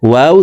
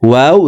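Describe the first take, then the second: No difference in how they are said.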